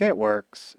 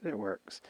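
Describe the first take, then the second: First: Said in the usual way. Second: Softer echo of the first line; much softer repeat. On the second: Retold or imitated. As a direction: drop the repeat way down in volume, almost to yourself. Klansman Joe repeating himself.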